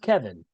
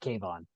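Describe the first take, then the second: First: The name ends with a short 'in' sound. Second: The name ends with a 'von' sound. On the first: The speaker calls it right. "So it's pronounced Kevin then" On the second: The speaker calls it wrong. "because we were pronouncing it Kayvon"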